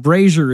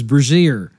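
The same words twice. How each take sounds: First: Brazier said as "BRAY-zher"; first syllable stressed, brazier as "BRAY-zher"; correct brazier. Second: Brazier said as "bruh-ZEER"; mispronounced brazier. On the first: Boss teaching him to stand up, brazier as "BRAY-zher". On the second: Boss giving the false version, brazier as "bruh-ZEER". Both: Retold or imitated. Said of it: "brazier is brazier".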